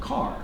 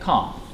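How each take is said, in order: First: It is said with an American accent, R pronounced. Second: It is said with a British accent, R dropped. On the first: "In American English, they're going to say car" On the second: "But in British English, you're going to say car"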